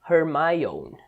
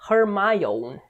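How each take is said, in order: First: The name is said with English pronunciation. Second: The name is said with English pronunciation.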